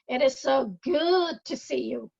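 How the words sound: The word "good" carries the stress.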